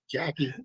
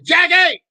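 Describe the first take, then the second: First: It is said fairly quietly. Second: It is said loudly, almost yelled.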